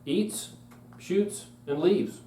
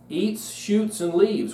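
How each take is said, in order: First: There are pauses after eats and after shoots. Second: It runs on with no pause after eats.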